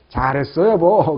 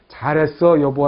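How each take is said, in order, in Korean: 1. 따뜻하고 정말 기뻐하는 것처럼 들려요. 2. 비꼬는 듯하고 못마땅하게 들려요. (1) "아 감정이 느껴지죠" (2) "어조나 억양 어감이 분명히 다를 거다"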